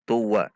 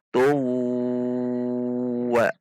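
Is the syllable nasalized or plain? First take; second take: plain; nasalized. First: It is said plainly with no nasal hum. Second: It is said with a lengthened nasal hum. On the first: The speaker calls it wrong. "tidak boleh dibaca tuwa" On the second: The speaker calls it right. "harus ada dengungnya atau panjang"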